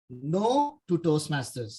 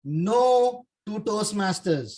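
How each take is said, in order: First: Said in the usual way. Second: Slow punchline with stress on No; reveal. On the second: Shown as a demonstration. Speaker reveals his talk title to the audience, slow and stressed. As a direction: reveal "No to Toastmasters" slowly, leaning on No. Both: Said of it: "do you know what is N T M?".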